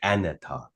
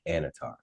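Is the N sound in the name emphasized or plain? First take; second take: emphasized; plain. First: The N sound is emphasized. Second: The N sound is not emphasized. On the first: This is how the show says it. "they em- emphasize the N in the show" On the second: This is how the speaker has always said it. "I've always just been like"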